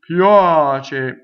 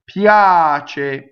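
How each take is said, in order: First: The vowel sounds duller with little head resonance. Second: The vowel rings brightly with strong head resonance. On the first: The speaker calls it wrong. "it's not as good" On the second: The speaker calls it right. "you see how much resonance is coming out of your head"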